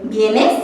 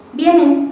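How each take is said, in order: First: "¿vienes?" asked with a clear rise on the last syllable; rising question demo of "¿vienes?"; rising question tune. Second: "¿vienes?" started higher and dropping at the end; falling contrast demo of "¿vienes?"; higher, falling tune. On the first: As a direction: lift the end of "¿vienes?" like a real question. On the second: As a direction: drop the end of "¿vienes?" like a statement. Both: Shown as a demonstration. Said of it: "van cambiando de acuerdo al tono de voz".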